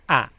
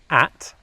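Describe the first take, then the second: First: The final T is dropped, ending on ah. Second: The final T sound is clearly pronounced. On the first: The speaker calls it wrong. "they don't pronounce the T sound. ... just an ah sound with a downward inflection" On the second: The speaker calls it right. "instead of saying at"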